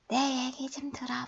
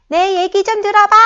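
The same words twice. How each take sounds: First: The phrase is said softly and quietly. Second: The phrase is shouted loudly. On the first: "이렇게 작게 얘기하는" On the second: "선생님은 아주 우아하게 고함을 질렀죠?"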